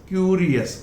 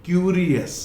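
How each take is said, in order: No difference in how they are said.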